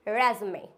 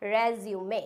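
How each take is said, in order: First: "resume" as REZ-may; American pronunciation. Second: "resume" as rez-yoo-may; British pronunciation. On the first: Teacher shows the American form, "resume" as rez-may. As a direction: say "resume" in two syllables, middle dropped. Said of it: "in American you can say". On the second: Teacher shows the British form, "resume" as rez-yoo-may. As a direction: say "resume" in three syllables with "yoo". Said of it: "In British language you can say". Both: Shown as a demonstration.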